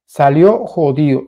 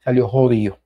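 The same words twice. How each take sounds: First: SALIÓ jodido, drawn out slowly with weight on salió; slow stressed repeat. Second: Said in the usual way. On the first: Shown as a demonstration. Vlogger repeating his own phrase for emphasis, slow stress on salió. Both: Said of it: "como decimos nosotros".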